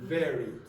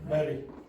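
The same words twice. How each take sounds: First: The word begins with a v sound. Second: The word begins with a b sound. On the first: The speaker calls it right. "watch my lips when I say the first word" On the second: The speaker calls it wrong. "Don't go like this. If you do that"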